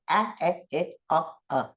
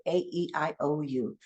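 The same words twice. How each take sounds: First: A, e, I, o, u as short English vowels, as in cat, bed, sit, hot, cup; clipped short vowels for "a, e, I, o, u"; short vowel sounds. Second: A, E, I, O, U as their letter names; long vowels for "A, E, I, O, U", each saying its name; long vowel sounds. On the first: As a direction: say "a, e, I, o, u" as short sounds, not letter names. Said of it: "that's when I'm gonna say". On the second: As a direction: say "A, E, I, O, U" like reciting the alphabet names. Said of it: "then I'm gonna say". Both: Shown as a demonstration.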